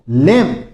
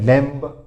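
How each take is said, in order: First: No b sound is heard at the end. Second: A b sound is heard at the end. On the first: The speaker calls it right. "इसमें भी बी silent रहता है" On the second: The speaker calls it wrong. "लैम्ब नहीं होता है"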